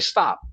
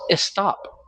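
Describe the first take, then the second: First: Stop is said in a plain English accent. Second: Stop is said in a Spanish accent. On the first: "she doesn't say stop" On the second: "She says stop"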